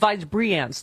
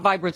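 First: The name is said with three syllables. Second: The name is said with two syllables. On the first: The speaker calls it right. "There's an extra syllable" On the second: The speaker calls it wrong. "it's not Vibrance"

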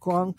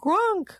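First: The call is said plainly, without much feeling. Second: The call is said with more feeling and expression.

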